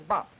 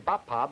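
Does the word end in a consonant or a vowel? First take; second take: consonant; vowel. First: The word ends on a bare consonant. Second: The word ends with an added vowel sound. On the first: The speaker calls it right. "but should say bop" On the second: The speaker calls it wrong. "I shouldn't say bappa"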